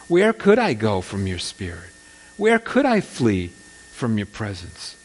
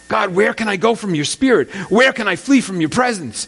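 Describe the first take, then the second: First: It sounds comforted, like God is always near. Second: It sounds desperate, like fleeing from God.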